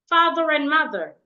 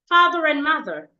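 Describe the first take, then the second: The two takes are said the same way.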